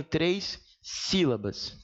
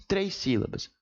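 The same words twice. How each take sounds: First: Very slow, with a pause before sílabas; contagem enfatizada. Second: Said in the usual way. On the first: Shown as a demonstration. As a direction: draw out três, then place sílabas apart. Stretching the syllable count while teaching. (bem devagar, com pausa)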